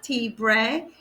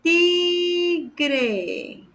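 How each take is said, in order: First: The wrong word "tibre", B before the R; mistaken B. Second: "Tigre" high and stretched, with a hard G; clear G. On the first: Teacher flagging her own confusion, B sound in "tibre". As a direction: say "tibre" with a B in place of G. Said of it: "Not tibre". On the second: Teacher correcting herself on tiger, clear G in "Tigre". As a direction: draw out "Tigre", sounding G before the R. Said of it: "With the G". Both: Shown as a demonstration.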